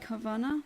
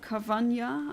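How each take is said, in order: First: The last syllable has a plain n sound. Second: The last syllable has a ny sound. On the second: "I think it should be pronounced like a um, like um, the original animal, piranha"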